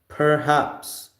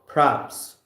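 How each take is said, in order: First: Every syllable of the word is said clearly. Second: The first syllable is squeezed into a short form.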